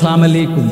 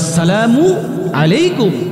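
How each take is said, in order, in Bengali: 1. সালামটি শুরু হয় 'as' অংশ ছাড়া। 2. সালামটি শুরু হয় পূর্ণ 'as' অংশ দিয়ে। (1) "অশুদ্ধ উচ্চারণে সালাম দেই" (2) "শুদ্ধ উচ্চারণে সালাম দিতে হবে"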